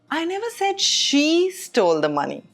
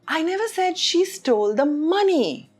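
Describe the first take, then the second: First: The stress falls on the word she. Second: The stress falls on the word money. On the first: Someone other than her did it. "which means it wasn't her" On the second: She stole something else. "which means she stole something else"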